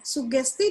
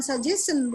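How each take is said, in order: First: Sugesti said the Indonesian way, su-GES-ti. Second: Suggestion said the English way, sad-JES-en. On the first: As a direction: say Sugesti with hard g and final ti. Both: Shown as a demonstration. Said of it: "Sugesti dengan suggestion beda".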